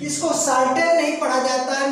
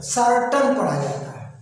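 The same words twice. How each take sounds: First: "सर्टेन" with a long e in the second syllable, the deliberately wrong way; "सर्टेन" read the wrong way, long e at the end; wrong pronunciation. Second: "सर्टन" with a short, reduced second vowel; "सर्टन" with a weak short final vowel; correct pronunciation. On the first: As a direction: says "सर्टेन" as sar-TAIN, as a mistake to avoid. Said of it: "मैं जानबूझकर गलत पढ़ा हूँ". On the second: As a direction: says "सर्टन" as SAR-tun, the correct way. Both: Shown as a demonstration.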